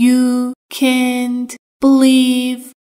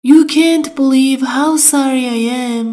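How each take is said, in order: First: Each word of "You can't believe" drawn out slowly; slow, careful. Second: Said in the usual way. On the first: Shown as a demonstration. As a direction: spell it out slowly for learners. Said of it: "teacher repeats slowly". (آهسته و شمرده) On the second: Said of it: "teacher models phrase".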